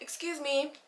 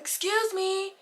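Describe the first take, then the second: First: It is said at a normal, soft volume. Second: It is said loudly, almost yelled.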